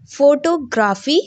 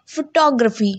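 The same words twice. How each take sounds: First: Photography as FOTO-graphy, rising end; mispronunciation. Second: Photography as fuh-TOG-ruh-fee; correct pronunciation. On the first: Teacher showing a wrong reading, mispronounced. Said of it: "It's a wrong pronunciation". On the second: Teacher giving students the right form, correctly pronounced. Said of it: "the correct pronunciation is". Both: Shown as a demonstration.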